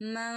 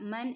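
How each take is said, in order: First: The n is hidden and nasalized. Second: The n is pronounced clearly and fully. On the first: The speaker calls it right. "നൂനിനെ ഇഖ്ഫാ ചെയ്യുക കേട്ടോ, മറച്ചു മണിക്കുക" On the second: The speaker calls it wrong. "മൻ എന്ന് ഓതാൻ കഴിയില്ല"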